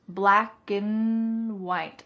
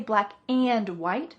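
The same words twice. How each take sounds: First: The word 'and' is reduced to a short 'n'. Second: The word 'and' is pronounced fully and clearly. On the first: "I reduced and to just mm"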